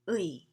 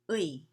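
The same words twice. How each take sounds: First: The vowel glides from one sound into another. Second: The vowel glides from one sound into another.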